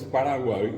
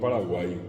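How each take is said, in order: First: The final vowel is a central, unrounded vowel. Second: The final vowel is a plain front 'ee'. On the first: This is the original Guarani pronunciation. The speaker calls it right. "así como es Paraguay" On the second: This is how Spanish speakers say it. The speaker calls it wrong. "y no Paraguay"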